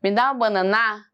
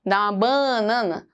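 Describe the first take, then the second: First: Banana said wrongly as bana-NAAA; exaggerated ending on banana; stress on last syllable. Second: Banana said wrongly as BAAA-nana; exaggerated BA in banana; stress on first syllable. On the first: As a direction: stretch and punch the final NA of banana. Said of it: "Se eu colocar o na mais forte". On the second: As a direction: stretch and punch the BA of banana. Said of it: "Uso o ba mais forte". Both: Shown as a demonstration.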